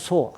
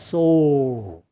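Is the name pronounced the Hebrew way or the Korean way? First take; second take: Korean; Hebrew. First: It is said with plain Korean pronunciation. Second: It is said with a Hebrew-style pronunciation. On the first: "한글의 발음이 소니까 소인데" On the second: "이게 이제 히브리식 발음입니다"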